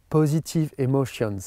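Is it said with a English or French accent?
French. It is said with a French accent.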